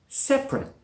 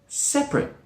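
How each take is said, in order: No difference in how they are said.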